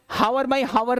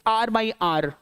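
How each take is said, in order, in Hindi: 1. Hour की शुरुआत h से होती है, दो सिलेबल। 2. Hour में h नहीं है, एक सिलेबल। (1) "हावर बाई हावर नहीं बोलते" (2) "इट्स आर बाई आर"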